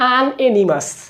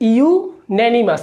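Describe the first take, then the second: First: The word begins with an 'an' sound. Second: The word begins with a 'you' sound. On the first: The speaker calls it wrong. "তখন বলতাম আন এনিমাস" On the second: The speaker calls it right. "But এইটার উচ্চারণ হবে হচ্ছে গিয়ে ইউনেনিমাস"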